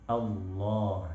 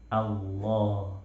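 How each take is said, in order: The two takes are said the same way.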